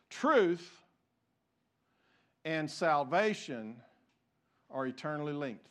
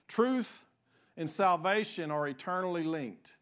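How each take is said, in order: First: It is spoken slowly and deliberately. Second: It is spoken at a normal pace.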